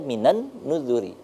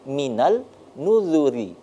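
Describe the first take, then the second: First: An n sound comes before nuzuri. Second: An l sound comes before nuzuri. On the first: The speaker calls it right. "Tapi kita baca minan nuzuri" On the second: The speaker calls it wrong. "Tapi mengapa tidak kita baca minal nuzuri?"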